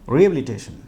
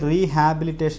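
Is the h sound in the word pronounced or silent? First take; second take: silent; pronounced. First: The h sound is left silent. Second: The h sound is clearly pronounced. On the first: The speaker calls it right. "ഈ എച്ച് silent ആക്കിയിട്ട് വേണം നിങ്ങളത് pronounce ചെയ്യാൻ" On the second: The speaker calls it wrong. "ശരിക്കും അത് വായിക്കേണ്ടത് റീഹാബിലിറ്റേഷൻ എന്നല്ല"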